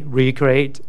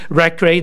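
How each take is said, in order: First: It sounds like re-create, with a long first vowel. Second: It sounds like rec-reate, with a short first vowel. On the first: To create again. The speaker calls it right. "recreate, not recreate" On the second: To entertain. The speaker calls it wrong. "recreate, that means to entertain"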